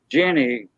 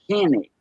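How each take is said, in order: First: The name begins with a J sound. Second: The name begins with an H sound. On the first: "his wife was Jenny" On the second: "but he said Henny all the time"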